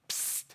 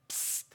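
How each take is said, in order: The two takes are said the same way.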